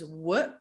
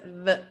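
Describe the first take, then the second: First: A rounded-lip w sound with no lip-teeth contact. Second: The lower lip touches the teeth, close to v. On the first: This is how English pronounces it. "the English W" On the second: This is how Dutch pronounces it. "my lower lip touches my teeth"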